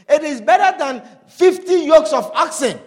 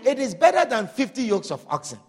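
First: Louder, stress on better, preached out; emphatic proclamation. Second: Said in the usual way. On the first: Acted. Preacher promising the congregation something better, emphatic. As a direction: proclaim it so the crowd feels it.

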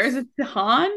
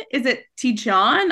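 First: "Tejan" said Spanish-style as teh-HAHN, rising like a question; guessing a pronunciation. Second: "Tijan" said English-style as tee-JAHN, with a J sound and a rising question; guessing a pronunciation. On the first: Podcast host guessing the author's name, tentative Spanish-style guess. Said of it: "is there, like, a Spanish flair?". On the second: Podcast host guessing the author's name again, English-style guess. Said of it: "I have no idea". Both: Shown as a demonstration.

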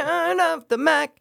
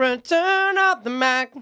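First: "Return of the Mac" sung high, weight on "of"; his own take. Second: "Return of the Mac" sung high and slow, leaning on "Return"; stress on return. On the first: Defending his version of the song title to his friend, high and rushed. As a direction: sing "Return of the Mac" quickly rising on "of". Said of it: "yours is more like". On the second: Demonstrating to his friend how the song title should go, high and drawn out. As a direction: stretch out "Return of the Mac" like the hook. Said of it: "Put the emphasis on the return". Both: Shown as a demonstration.

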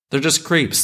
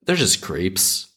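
First: Higher, punchy exasperation on creeps; exasperated, hitting creeps hard; exasperated outburst. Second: Slow, deliberate, leaning on they're; slow and deliberate, weight on they're; slow emphatic. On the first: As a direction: blurt it out, fed up. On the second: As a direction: spell it out slowly. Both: Shown as a demonstration. Repeating line for emphasis.

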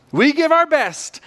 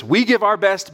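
First: "We give our best" pitched much higher, slowly and emphatically; emphatic repeat. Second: Said in the usual way. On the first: Shown as a demonstration. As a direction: drive home "We give our best", high and slow.

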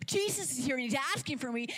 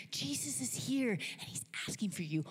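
First: Quick, higher, amazed echo; Mary. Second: Urgent news, fairly contained; Martha. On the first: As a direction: repeat the news in excited disbelief. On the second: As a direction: pass the message on to a sister. Martha brings Mary the news. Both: Acted.

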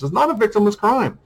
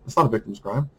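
First: "It's not a victimless crime" said much higher and hammered; indignant insistence; emphatic. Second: Said in the usual way. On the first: Real, not acted. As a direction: raise the pitch and insist. Repeating his main claim.

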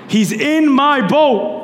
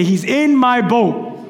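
First: "in" leaned on, slow and firm; stress on in. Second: Said in the usual way. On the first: Shown as a demonstration. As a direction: hit "in" in "He's in my boat". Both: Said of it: "Everyone say".

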